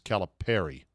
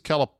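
First: The ending sounds like the name 'Perry'. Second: The ending rhymes with 'calamari'. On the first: The speaker calls it right. "I think it's Perry" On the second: The speaker calls it wrong. "I don't think it's Calipari. Pari, because that rhymes with the fried squid calamari"

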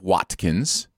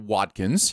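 First: The t sound is crisp and sharp. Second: The t sound is softened and quick. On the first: "instead of Watkins" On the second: "true for Watkins"

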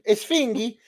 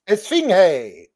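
First: The name ends with a 'gee' sound. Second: The name ends with a 'hey' sound. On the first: The speaker calls it wrong. "Esfingi sounds like he's Norwegian" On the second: The speaker calls it right. "Hey makes more sense"

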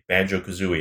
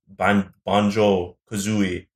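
First: The name is said with an English accent. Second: The name is said with a French accent. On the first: "they play it in English" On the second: "and then it says the French one"

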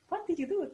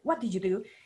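First: It sounds happy and friendly. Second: It sounds stern and accusing.

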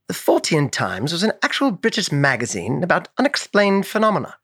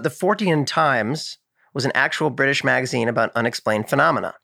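First: It is read in a put-on British accent. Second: It is read in the speaker's usual accent.

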